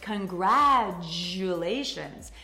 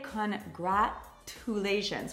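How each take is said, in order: First: No clear T sound is pronounced in the middle. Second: A clear T sound is pronounced in the middle. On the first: The speaker calls it right. "We say congratulations" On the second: The speaker calls it wrong. "we don't pronounce the T. We do not say congratulations"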